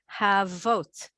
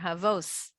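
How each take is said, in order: First: The word ends with a t sound. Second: The word ends with an s sound.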